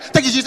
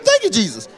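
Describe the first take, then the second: First: It is said fast as one blur. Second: It is said slowly and clearly.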